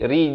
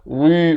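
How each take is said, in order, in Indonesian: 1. Bunyi r dibaca tipis dan ringan. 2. Bunyi r dibaca tebal dan berat. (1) "ri di sini jadi nipis" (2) "Jangan baca ri, rimin, itu jadi tebal ya"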